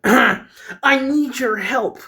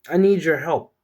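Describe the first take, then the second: First: Slow, high, louder character voice; high-pitched pleading for help, stretched out; Peyton. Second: Said in the usual way. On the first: Acted. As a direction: plead in a drawn-out, put-on high voice. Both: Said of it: "that's not what Peyton sounds like".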